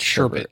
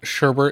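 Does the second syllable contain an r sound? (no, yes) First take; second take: no; yes. First: The second syllable has no r sound. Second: The second syllable has an r sound. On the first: The speaker calls it right. "It's Sherbet" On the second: The speaker calls it wrong. "It is not Sherbert"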